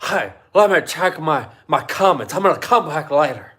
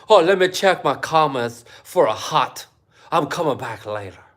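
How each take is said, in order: First: A louder second try at a mock vlogger voice; mock him again, a bit louder; a touch of a sneering vlogger imitation; mocking impression. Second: A hammed-up mock voice of a vlogger; a hint of a mocking vlogger voice; mocking impression. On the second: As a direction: lightly send up a vlogger checking comments. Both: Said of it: "Do you think that's what he sounds like?".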